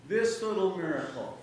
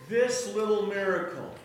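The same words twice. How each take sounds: Both takes have the same delivery.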